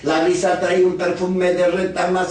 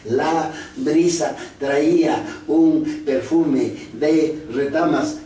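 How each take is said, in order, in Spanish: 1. Se lee muy rápido, sin ninguna pausa. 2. Se lee a trompicones, palabra por palabra. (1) "esas lecturas vertiginosas" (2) "evitamos en primer lugar que los niños se lean así"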